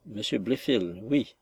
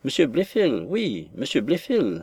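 First: Soft, drained repetition of the name; faint, lifeless voice. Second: Emphatic, swooping repetition; exclaimed insistence. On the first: Pale niece repeats the suitor's name, faint voice. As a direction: say it faintly, as if strength has gone. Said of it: "le répéta d'une voix éteinte". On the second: Aunt confirms the name to her stunned niece, exclaimed insistence. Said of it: "s'écria la tante". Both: A narrator's reading.

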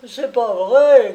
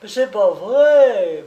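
First: Loud, high, shrieked protest; yelping denial. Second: Higher, slow, desperate pleading whine; beg, close to tears; distraught whimper. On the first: The hawker yelps his denial at the policeman, loud and high. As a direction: yelp it out in panic. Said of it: "glapit le camelot". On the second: The hawker whimpers his denial, held in a crushing grip, distraught. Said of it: "pleurnicha d'un accent éperdu". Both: Acted.

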